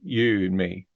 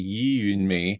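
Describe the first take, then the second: First: The vowel in 'you' is made further back. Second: The vowel in 'you' is made further forward. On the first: The speaker calls it right. "goes into the back of the mouth" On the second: The speaker calls it wrong. "would not be you and me"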